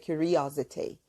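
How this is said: It is said in a British accent. "um britânico falaria curiosity"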